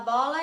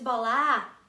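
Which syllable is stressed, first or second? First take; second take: first; second. First: The stress is on the first syllable. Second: The stress is on the second syllable. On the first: The speaker calls it right. "é o bó mais tônico" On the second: The speaker calls it wrong. "no lugar errado"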